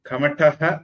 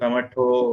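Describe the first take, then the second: First: The word ends with a breathy 'ah' sound. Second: The word ends with an 'o' sound. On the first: "அக விசர்க்கம்" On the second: "नमो नारायण மாதிரி"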